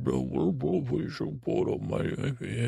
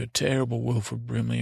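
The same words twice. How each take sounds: First: Slow, garbled mock impersonation; terrible Wilford Brimley. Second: Said in the usual way. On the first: Shown as a demonstration. Narrator recalling his childhood tape, terrible slurred imitation. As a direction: drag the words out in a badly faked impression. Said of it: "a terrible Wilford Brimley imitation".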